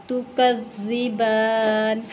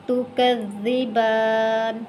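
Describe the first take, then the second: The two takes are said the same way.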